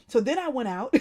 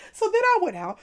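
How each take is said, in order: First: Said in the usual way. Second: So then I went out said through laughter, higher and louder; laughing. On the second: Real, not acted. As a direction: repeat it while still laughing.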